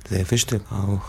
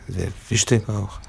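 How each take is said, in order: Both takes have the same delivery.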